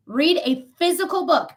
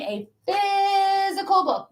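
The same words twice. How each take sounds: First: Said in the usual way. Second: Physical stretched out slow and higher; insisting on physical, drawn out; stress on physical. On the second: Shown as a demonstration. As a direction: lean hard on physical, slowly. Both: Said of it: "I mean a physical book".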